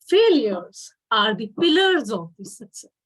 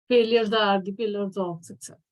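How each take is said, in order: First: It is said with pitch rising and falling. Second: It is said in a flat, even pitch. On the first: The speaker calls it right. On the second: The speaker calls it wrong.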